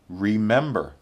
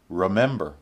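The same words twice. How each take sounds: First: It is said in its full, careful form. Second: It is said in a somewhat reduced form.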